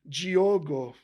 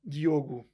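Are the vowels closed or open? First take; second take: open; closed. First: It has more open vowels, Brazilian Portuguese style. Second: It has closed vowels, European Portuguese style.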